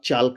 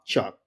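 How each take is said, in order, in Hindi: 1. L की ध्वनि बोली जाती है। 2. L की ध्वनि छोड़ दी जाती है। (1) "नहीं पढ़ेंगे" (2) "इसका प्रोनाउंसिएशन है"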